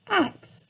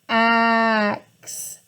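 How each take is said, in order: First: The word is said at normal length. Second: The word is stretched out and drawn long.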